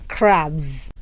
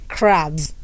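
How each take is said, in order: No difference in how they are said.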